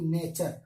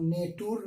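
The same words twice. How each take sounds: First: नेचर said as "nay-cher", with a ch sound for the t; correct pronunciation. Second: नेटूर said as "nay-toor", with a plain t sound; deliberately wrong नेटूर, letters read as spelt; wrong pronunciation. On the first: Teacher models the right English word for students, clearly. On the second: Teacher shows students the mistake to avoid, plainly. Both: Shown as a demonstration. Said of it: "हम नेटूर नहीं पढ़ेंगे इसे".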